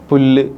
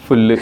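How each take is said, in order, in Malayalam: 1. ഈ വാക്ക് സാധാരണ p ശബ്ദത്തിലാണ് തുടങ്ങുന്നത്. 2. ഈ വാക്ക് f ശബ്ദത്തിലാണ് തുടങ്ങുന്നത്. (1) "പ എന്ന അക്ഷരത്തിന് പകരം" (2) "ഫ യൂസ് ചെയ്യും"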